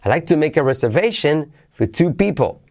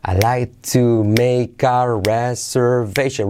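First: Said in the usual way. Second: Stretched-out, syllable by syllable; slow model. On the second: Shown as a demonstration. Teacher before asking for repeats, slow model. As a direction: say it very slowly for learners to copy.

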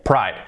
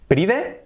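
First: Said in the usual way. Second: "pride" read as PREE-deh, rising; Spanish-style "pride" with final e sounded; spelling pronunciation. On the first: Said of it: "por lo tanto". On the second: Shown as a demonstration. Teacher contrasting spelling with sound, spelled-out reading. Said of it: "Escrito pride".

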